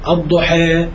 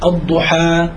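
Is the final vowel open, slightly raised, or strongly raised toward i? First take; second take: slightly raised; open. First: The final vowel leans slightly toward e. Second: The final vowel is a fully open a. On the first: "التقليل" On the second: "الفتح"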